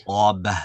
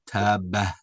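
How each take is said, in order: First: "taba" clean, no trailing ha; "taba" with a crisp ending; correct taba. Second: "taba" slow with a trailing ha; "taba" with an extra sigh at the end; wrong taba. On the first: Teacher contrasting, clean "taba". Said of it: "and taba". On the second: Teacher mimicking the student, "taba" with added ha. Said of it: "You're saying taba". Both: Shown as a demonstration.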